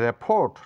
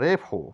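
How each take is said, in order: First: The final t is pronounced. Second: The final t is silent. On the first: The speaker calls it wrong. "নয়" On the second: The speaker calls it right. "এটা বলবো"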